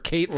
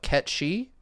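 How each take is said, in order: First: The name ends with a 'sith' sound. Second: The name ends with a 'shee' sound. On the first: This is how it was read from the spelling. The speaker calls it wrong. "I said it this way all the time" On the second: This is the official pronunciation. The speaker calls it right. "I believe it's supposed to be"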